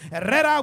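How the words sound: The name is said with rolled Spanish R sounds. The speaker calls it right.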